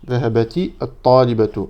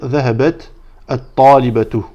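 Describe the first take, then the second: First: The words are linked with an added i vowel. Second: The first word ends with a stop, no vowel. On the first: "Ça, c'est si on fait la liaison" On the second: "Si on s'arrête"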